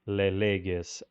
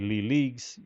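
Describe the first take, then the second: First: The name is said closer to the Greek. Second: The name is said with an anglicized pronunciation. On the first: The speaker calls it right. "I will adopt Leleges as uh, the pronunciation" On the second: The speaker calls it wrong. "anglicized uh, pronunciation will really do a disservice"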